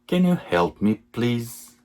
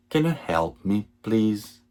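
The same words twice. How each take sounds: The two takes are said the same way.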